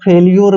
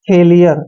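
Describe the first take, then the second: First: The word ends with a 'lyoor' sound. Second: The word ends with a 'lee-er' sound. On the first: The speaker calls it wrong. "लेकिन फेल्यूर यहाँ पर सही नहीं है" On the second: The speaker calls it right. "यहाँ पर इसको हम फेलियर पढ़ते हैं"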